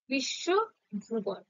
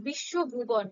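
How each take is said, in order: First: Slow teaching demo of বিশ্বভুবন; slow syllable by syllable. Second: Said in the usual way. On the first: Shown as a demonstration. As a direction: stretch বিশ্বভুবন out very slowly, one syllable at a time. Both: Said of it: "যেমনটা উচ্চারণ করবে".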